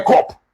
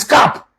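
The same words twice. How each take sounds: First: "cop" with an aw-like vowel; mispronounced "cop". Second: "cap" with an ah vowel, not an o; correct pronunciation. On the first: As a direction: say "cop" with a rounded o, like kawp. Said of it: "Do you think no cop". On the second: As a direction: say "cap" with an open a, like kahp. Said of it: "The real pronunciation is". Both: Shown as a demonstration.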